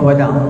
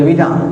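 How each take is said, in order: First: The first vowel is an 'a' sound. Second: The first vowel is an 'i' sound. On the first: The speaker calls it right. "yang betulnya tawaf wada'" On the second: The speaker calls it wrong. "Sebagian kita panggil wida'"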